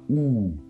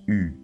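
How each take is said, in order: First: The vowel sounds like 'oo', lips rounded only. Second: The vowel is a front rounded 'u' sound. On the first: The speaker calls it wrong. "La lettre U ne se prononce pas OU, non" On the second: The speaker calls it right. "Elle se prononce U"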